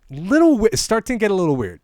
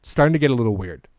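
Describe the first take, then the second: First: Much higher and louder mock uneasy voice; mock uneasy acquaintance, pitched well up. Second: Said in the usual way. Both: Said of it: "real things that people have said to me".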